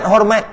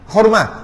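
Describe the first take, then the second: First: The word ends with a t sound. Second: The word ends with an h sound. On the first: This is the Malay form. The speaker calls it wrong. "Melayu panggil hormat" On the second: This is the original Arabic form. The speaker calls it right.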